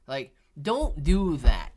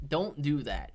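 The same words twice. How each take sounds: First: "don't do that" said slowly and louder, DON'T hit hard; emphatic warning. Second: Said in the usual way. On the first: Real, not acted. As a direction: lean on "don't", slow and firm.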